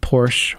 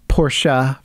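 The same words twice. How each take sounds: First: It uses the American pronunciation. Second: It uses the European pronunciation.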